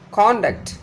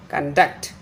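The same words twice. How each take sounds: First: Conduct with the stress on CON; CONduct, open first syllable, weak second; noun stress. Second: Conduct with the stress on -DUCT; conDUCT, reduced first syllable; verb stress. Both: Shown as a demonstration. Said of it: "difference between the pronunciation of the noun and the verb".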